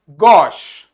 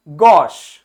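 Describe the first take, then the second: First: गॉश said lower and louder, open o, crisp sh; pronunciation drill. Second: गॉश said lower and louder, open o like hockey's हॉ; pronunciation drill. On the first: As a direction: drill गॉश firmly so they echo it. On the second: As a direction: repeat गॉश firmly as the model. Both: Shown as a demonstration. Teacher drilling गॉश, class repeats after him. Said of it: "क्या बोलेंगे?".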